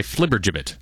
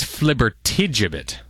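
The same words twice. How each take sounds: First: Flibbergibbet, missing the "ti" syllable; shortened flibbergibbet without the middle "ti"; mistaken pronunciation. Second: Flibbertigibbet with the "ti" put in; full flibbertigibbet, middle syllable clear; corrected pronunciation. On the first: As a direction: say flibbergibbet as four syllables, FLIB-er-jib-it. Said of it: "it turns out I was wrong about it". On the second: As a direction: say flibbertigibbet in five syllables, flib-er-tee-JIB-it. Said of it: "But it turns out it's". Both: Shown as a demonstration.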